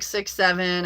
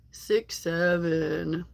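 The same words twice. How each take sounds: First: Said in the usual way. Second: Very slow, drawn-out slang catchphrase; mock kid slang. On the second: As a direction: imitate kids' slang, stretching each word. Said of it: "I know it's weird when an adult says it".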